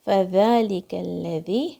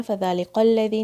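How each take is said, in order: First: Very slow فذلک الذی with a light کاف and a held لام; slow correct recitation. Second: فذلک الذی rushed with a wrong لام; wrong reading demo. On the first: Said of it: "کاف کو light رکھنا ہے". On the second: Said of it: "نہیں بولنا ہے". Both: Shown as a demonstration.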